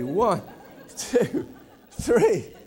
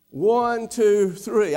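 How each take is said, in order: First: Put-on counting the kids while breaking into laughter; mock mother's head count, laughing. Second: Said in the usual way. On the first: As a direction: giggle through the numbers.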